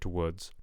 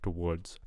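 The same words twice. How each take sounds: First: The R sound is missing from the word. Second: The same.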